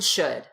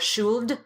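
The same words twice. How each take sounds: First: The word is said without an L sound. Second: The L sound is pronounced in the word. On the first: The speaker calls it right. "No L there" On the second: The speaker calls it wrong. "It's not"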